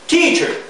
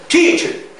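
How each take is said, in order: Both takes have the same delivery.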